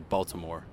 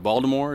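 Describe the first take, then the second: First: The t in the middle sounds like a t. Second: The t in the middle sounds like a d. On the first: The speaker is not from there. "I would say Baltimore" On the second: The speaker is a true local. "you kind of say it with a D"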